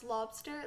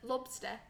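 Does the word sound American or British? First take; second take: American; British. First: It is said in a plain American accent. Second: It is said with a British-sounding pronunciation.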